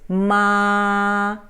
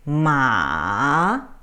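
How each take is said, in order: First: The pitch stays level throughout. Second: The pitch dips down then rises. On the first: It means mother. "if you put it a flat tone" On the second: It means horse. "If you go down and up"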